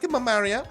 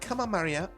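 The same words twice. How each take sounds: First: It is said in Dorothy's voice. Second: It is said without Dorothy's voice.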